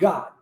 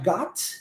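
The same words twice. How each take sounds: First: The final T sound is swallowed and dropped. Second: The final T sound is clearly pronounced. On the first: "simplesmente engulo esse T e digo I got" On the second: "eu posso pronunciar got"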